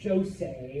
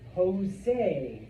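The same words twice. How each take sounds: First: The name begins with an English j sound. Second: The name begins with a breathy h sound. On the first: The speaker calls it wrong. "not Jose" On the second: The speaker calls it right. "So that name is Jose"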